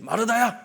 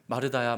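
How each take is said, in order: First: The name is called sharply, like a command. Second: The name is called gently, not as a command.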